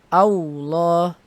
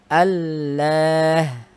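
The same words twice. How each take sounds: First: The lips round into a w-like sound. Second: A clear l sound without lip rounding. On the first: The speaker calls it wrong. "au, au, ini kan waw. Au sudah monyong bibirnya" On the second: The speaker calls it right. "Harusnya dengan lam"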